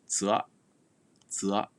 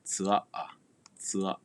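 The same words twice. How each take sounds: First: Zua with the final a left off; "zua" as one syllable, no final a; dropped final vowel. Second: Zua with both vowels sounded; "zua" in full, final a voiced; fully pronounced. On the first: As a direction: cut zua short before its last a. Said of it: "drop off". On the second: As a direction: give the final a of zua its own beat. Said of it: "you can also pronounce it fully". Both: Shown as a demonstration.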